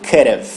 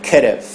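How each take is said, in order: No difference in how they are said.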